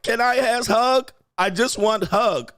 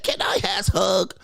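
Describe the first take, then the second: First: Put-on baby-talk wife. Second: Slow, breathy mock baby-talk whisper; baby-talk wife. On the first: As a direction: whine it like a clingy toddler. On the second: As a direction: whisper it like a needy child begging. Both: Mocking wife asking for a hug.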